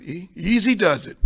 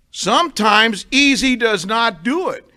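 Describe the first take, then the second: First: Said in the usual way. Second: Easy and not hit, slow and louder; drawn-out preacher's emphasis; slow emphatic stress. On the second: Shown as a demonstration. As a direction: lean on every word slowly, louder.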